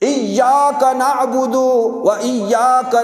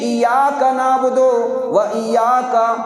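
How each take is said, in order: First: The y sound is doubled and held firmly. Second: The y sound is single and short. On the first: The speaker calls it right. "तशदीद है, सख्ती के साथ" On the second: The speaker calls it wrong. "तशदीद नहीं पढ़ी"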